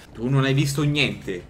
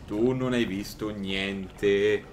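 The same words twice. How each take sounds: First: Slow menacing threat; mock tough guy. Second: Lower, very slow intoning; mock hypnotist. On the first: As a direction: lean in like a mobster. Fa il gangster al personaggio. (minaccia da finto boss) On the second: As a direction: drag every word like a hypnotist. Ripete più basso e lento. (tono lento e ipnotico)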